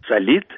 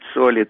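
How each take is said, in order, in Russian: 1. Ударение на втором слоге. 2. Ударение на первом слоге. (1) "Раньше говорили" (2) "а мы теперь говорим"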